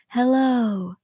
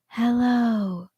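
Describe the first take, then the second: Both takes have the same delivery.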